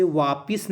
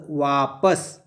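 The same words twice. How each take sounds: First: वापिस with a short i in the second syllable; वापिस pronounced "vaa-pis"; wrong reading. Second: वापस with a short a in the second syllable; वापस pronounced "vaa-pas", clearly joined; correct reading. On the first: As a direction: say वापिस quickly, ending in "-pis". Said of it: "उसे वापिस नहीं पढ़ेंगे". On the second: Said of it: "क्या पढ़ेंगे". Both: Shown as a demonstration.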